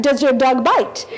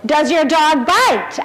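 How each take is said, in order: First: Lightly put-on French accent. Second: Said in the usual way. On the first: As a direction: try the film line with a hint of French. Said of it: "can you do it in a French accent".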